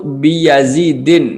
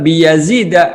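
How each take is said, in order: First: The name ends with an -in sound. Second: The name ends with an -a sound. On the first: The speaker calls it wrong. "Fala naqulu marartu bi Yazidin, maka tidak boleh mentanwin" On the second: The speaker calls it right. "akan tetapi bilangnya adalah Yazida, tanwin eh dengan dengan fathah"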